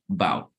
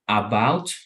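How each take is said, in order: First: The first vowel is left out entirely. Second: The first vowel is said fully and strongly. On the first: "don't even pronounce the A" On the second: "instead of saying about"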